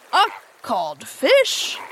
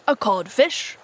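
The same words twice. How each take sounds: First: Slow, disbelieving question, swinging upward; blank echo. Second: Said in the usual way. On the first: A narrator's reading. Hook hears himself called a fish, blank echo. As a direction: draw out A CODFISH, rising at the end. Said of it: "Hook echoed blankly".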